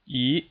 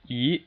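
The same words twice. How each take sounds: First: The pitch rises steadily from middle to high. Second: The same.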